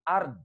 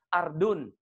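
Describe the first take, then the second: First: The ending is cut off after the consonant. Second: The word ends with a full '-un' ending.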